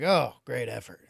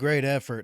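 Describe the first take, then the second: First: It is said in a mocking, sarcastic tone. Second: It is said in a plain, sincere tone. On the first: The effort is being mocked after a win. "that sarcastic, trolling way" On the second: The effort is genuinely admired. "as in putting forth a great deal of yourself"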